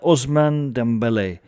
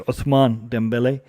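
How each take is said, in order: First: The first name has an 's' sound. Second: The first name has a 'th' sound. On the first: The speaker calls it wrong. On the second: The speaker calls it right.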